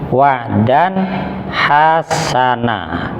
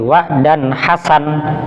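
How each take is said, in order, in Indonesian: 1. Frasa itu berakhir pada vokal a panjang. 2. Frasa itu berakhir pada konsonan n mati. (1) "tapi membacanya wa dan hasana" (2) "bukan berarti membacanya ketika berarti wa dan hasan, bukan"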